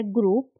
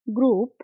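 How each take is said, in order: First: Said in the usual way. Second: Teacher's clear model word ग्रुप, said as "groop"; clear model repeat. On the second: Shown as a demonstration. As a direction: say ग्रुप again on its own as a model for learners to copy.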